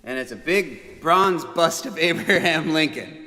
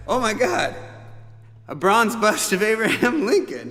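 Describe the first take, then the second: First: Plain with a laugh. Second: Higher and louder mock amazement; half-joking shocked reaction to the gift; stunned. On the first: Real, not acted. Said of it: "It's cool, right?". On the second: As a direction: gasp it out in disbelief. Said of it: "And I was like".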